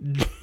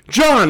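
First: It is a question with a rising tone. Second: It is an exclamation with a falling tone.

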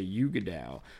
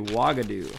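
First: The name is said as Yuga Dao. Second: The name is said as Wagadu. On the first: The speaker calls it wrong. "I always say Yuga Dao" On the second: The speaker calls it right. "but it's actually Wagadu"

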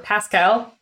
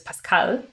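First: It is said with an American pronunciation. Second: It is said with a non-American pronunciation.

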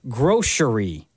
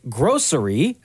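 First: The middle consonant is an sh sound. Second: The middle consonant is an s sound. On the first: "or S-H like grocery" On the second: "do you pronounce the C as an S like grocery"

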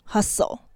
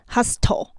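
First: The t sound is silent in the middle. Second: The t sound is pronounced in the middle. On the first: The speaker calls it right. "那个t 是不发音的，所以不是hustle，它是hustle" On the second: The speaker calls it wrong. "所以不是hustle"

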